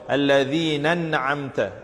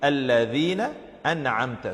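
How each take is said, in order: First: The two words run together as one word. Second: The two words stay separate with a glottal stop. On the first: The speaker calls it wrong. "join the two words unnecessarily ... like reading one word" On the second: The speaker calls it right. "The right way to read it"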